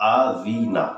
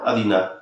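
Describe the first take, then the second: First: The word is said calmly and clearly. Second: The word is said hurriedly and clipped. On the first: The speaker calls it right. "আযিনা রিল্যাক্সে বলবেন স্পষ্ট হতে হবে" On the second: The speaker calls it wrong. "আযিনা তাড়াহুড়ো করা যাবে না"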